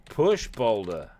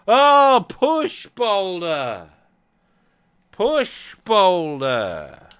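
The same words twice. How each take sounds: First: Said in the usual way. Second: High, loud, dragged-out push boulder; exasperated slow shout. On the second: Real, not acted. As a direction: shout it slowly in frustration. Game refuses command, frustrated.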